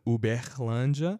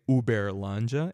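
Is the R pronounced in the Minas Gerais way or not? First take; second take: not Minas; Minas way. First: The R is said the non-Minas way. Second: The R is said the Minas Gerais way.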